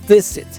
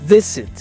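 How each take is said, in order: No difference in how they are said.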